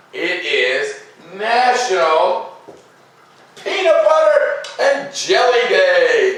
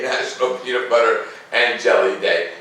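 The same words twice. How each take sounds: First: High, slow drawn-out announcement with a laugh; a game show reveal, stretched out and laughing; grand reveal. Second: Said in the usual way. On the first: Acted. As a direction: unveil the best one for last, laughing. Big reveal saved for last.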